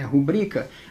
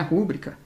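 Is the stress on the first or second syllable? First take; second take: second; first. First: The stress is on the second syllable. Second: The stress is on the first syllable. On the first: The speaker calls it right. "é rubrica. A sílaba tônica é" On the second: The speaker calls it wrong. "Aqui não é rúbrica"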